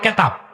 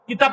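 First: The first vowel is an 'e' sound. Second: The first vowel is an 'i' sound. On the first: The speaker calls it wrong. "বলে কেতাব" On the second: The speaker calls it right. "কিতাব বলে না"

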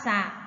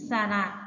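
First: The word is said as one syllable. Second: The word is said as two syllables. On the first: It means a large pond. "คำว่าสระหมายถึงแอ่งน้ำขนาดใหญ่" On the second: It means a vowel sign. "ถ้าเราอ่านว่าสระนะหมายถึงสระที่ใช้แทนเสียงในภาษาไทย"

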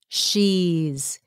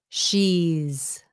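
First: The words are run together as one contraction. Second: The words are run together as one contraction.

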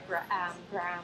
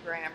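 First: Each letter sound is read out literally. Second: The name is said the usual way. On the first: "if we sounded that out just with the sounds, you said it right" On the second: "But the word is really Graham"

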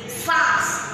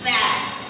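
First: It is said in a British accent. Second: It is said in an American accent.

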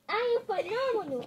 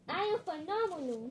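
First: It is said with strong conviction. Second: It is said without conviction.

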